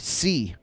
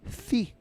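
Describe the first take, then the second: First: The s is a plain hissing sound. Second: The s is lisped like a th. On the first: "Mexicans usually say "si,"" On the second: "people from Spain, "si." ... they speak with a lisp"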